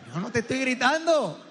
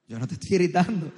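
First: Higher, heated mock denial; escalating denial. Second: Said in the usual way. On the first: Comedian acts out man losing the argument, denial rising toward yelling. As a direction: deny yelling while the voice climbs. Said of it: "Ya gritaste". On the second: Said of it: "Pero tú no estás gritando".

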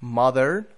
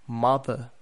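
First: "mother" the American way, final R sounded, rising; louder American "mother", tune left open; American accent. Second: "mother" the British way, silent final R, falling; British demo of "mother" with a closing fall; British accent. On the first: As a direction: model American "mother" with an r-coloured ending. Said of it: "The same with brother in". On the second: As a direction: model British "mother", ending in an open uh. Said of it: "and then in the British". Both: Shown as a demonstration.

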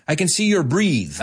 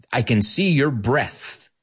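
First: "breathe" as the verb, with a long ee; wrong pronunciation breathe. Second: Said in the usual way. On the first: Shown as a demonstration. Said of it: "how many times people say". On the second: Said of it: "people say".

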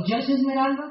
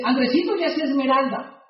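First: "esmeralda" left open as a question; echo question. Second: "esmeralda" falling as a settled fact; matter-of-fact statement. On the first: Checking Andrés's rank with his friend, questioning "esmeralda". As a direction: repeat "esmeralda" back, checking it. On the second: Friend reporting Andrés's rank, matter-of-fact falling "esmeralda". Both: Retold or imitated.

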